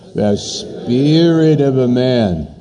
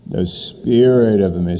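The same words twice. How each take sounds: First: It is said in a dramatic, heightened way. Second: It is said in a plain, ordinary way. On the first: "Say it dramatically" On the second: "Say it with me"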